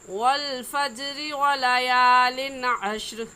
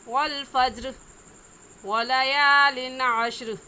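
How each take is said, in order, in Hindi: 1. वाक्यांश बिना रुके एक साथ पढ़े जाते हैं। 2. पहले वाक्यांश के बाद रुकना है। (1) "मिलाकर पढ़ने की सूरत में" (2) "अगर वक़फ़ करेंगे तो ऐसे पढ़ेंगे"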